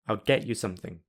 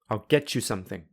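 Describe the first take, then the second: First: The t is replaced by a glottal stop. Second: The t and y merge into ch. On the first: "I will say them with the glottal plosive" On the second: "I will use linking"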